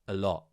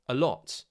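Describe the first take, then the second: First: The final T becomes a glottal stop. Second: The final T is clearly released.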